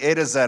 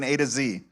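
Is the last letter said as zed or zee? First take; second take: zed; zee. First: It is said in a non-American accent, Z as zed. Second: It is said in an American accent, Z as zee.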